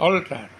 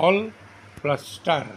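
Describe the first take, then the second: First: Said in the usual way. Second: "অল", pause, "plus star"; split into syllables. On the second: Shown as a demonstration. Teacher showing two syllables, "অল" and "star" said apart. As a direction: keep "অল" and "star" as separate beats. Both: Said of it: "দুটি syllable থাকে তাকে ডাইসিলেবল বলে".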